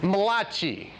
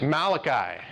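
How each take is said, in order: First: The name has an Italian-style pronunciation. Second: The name has a plain English pronunciation.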